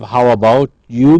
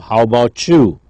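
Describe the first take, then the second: First: Each word is pronounced fully and separately. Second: The words are shortened and blended together.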